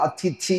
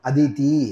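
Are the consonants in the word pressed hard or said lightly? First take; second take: pressed hard; light. First: The consonants are pressed hard and emphatic. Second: The consonants are said softly and lightly. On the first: It means an unexpected guest who comes to eat. "கொஞ்சம் அழுத்தி சொன்னோமானால்" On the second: It means the mother of the gods. "லேசா சொன்னோமானால்"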